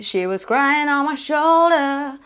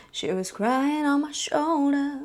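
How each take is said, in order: First: Said in the usual way. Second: Sung with a cry in the voice; vocal cry. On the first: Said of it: "There's no cry there". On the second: Shown as a demonstration. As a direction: let a sob catch the tone. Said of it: "That's a little bit of".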